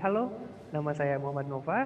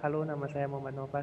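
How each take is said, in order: First: It is said relaxed, with varied tune and pauses. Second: It is said flat, like a memorized recitation. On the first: The speaker sounds confident and natural. The speaker calls it right. "kita relax, kita santai aja" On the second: The speaker is reciting from memory. The speaker calls it wrong. "Flat dari awal sampai akhir"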